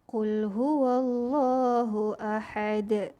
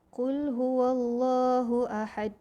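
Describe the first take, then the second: First: The final d ends with an echoing bounce. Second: The final d stops flat without a bounce. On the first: The speaker calls it right. "Tajwid yang betulnya ialah" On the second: The speaker calls it wrong. "Kita tak boleh baca ... Salah eh"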